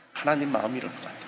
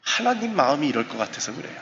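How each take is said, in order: First: Softer, quicker echo; hushed restatement of the line; soft repeat. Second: Said in the usual way. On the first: Real, not acted. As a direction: repeat it quietly to yourself.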